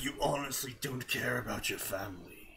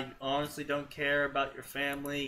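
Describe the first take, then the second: First: It is read in a put-on character voice. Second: It is read in the reader's ordinary voice. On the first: The speaker calls it right. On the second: The speaker calls it wrong.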